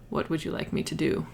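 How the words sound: It is said in a deep American voice.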